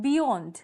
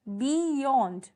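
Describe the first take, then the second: First: Said in the usual way. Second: "beyond" drawn out as bee-yond, both vowels held; split into syllables. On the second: Shown as a demonstration. Teacher showing students the two vowel sounds, "beyond" slowly split as bee-yond. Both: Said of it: "यहाँ ई और ओ vowels हैं".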